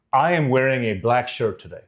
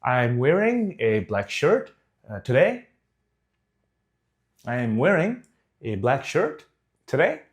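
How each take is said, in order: First: Full conviction. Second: "wearing", "shirt" and "today" each lifted like a question; unsure questioning uptalk. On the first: Coach shows how to sound sure of a fact, full conviction. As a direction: state it as a plain fact. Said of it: "say it with one hundred percent conviction". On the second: Coach demonstrates seeking approval, rising unsure on "today". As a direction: break it up with pauses, pitch rising on "shirt" and "today". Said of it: "it sounds like I'm asking a question". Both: Shown as a demonstration.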